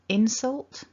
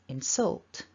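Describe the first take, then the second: First: The stress is on the first syllable. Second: The stress is on the second syllable. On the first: It is the noun: an insult. "we stress the first syllable" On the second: It is the verb: to insult. "if we move the stress to the second syllable, we turn it into a verb"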